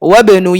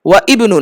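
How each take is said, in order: First: 'Wa' runs straight into 'bnu' without a stop. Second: A glottal stop separates 'wa' and 'ibnu'. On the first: The speaker calls it right. "মাঝখানে পড়লে তখন আর এটা উচ্চারণ হয় না" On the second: The speaker calls it wrong. "ওয়া ইবনু না"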